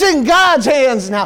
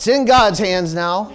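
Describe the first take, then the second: First: It is said in an excited, joyful way. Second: It is said in a flat, resigned way. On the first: It is sure to get done now. The speaker calls it right. "You never hear somebody get excited and proclaim" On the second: There is nothing more one can do. The speaker calls it wrong. "Instead of"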